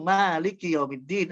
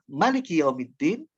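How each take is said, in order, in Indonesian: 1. Vokal pertama pada kata pertama itu panjang. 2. Vokal pertama pada kata pertama itu pendek. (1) "yang Malik bacanya panjang itu pakai mad di maknya" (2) "yang pendek artinya raja"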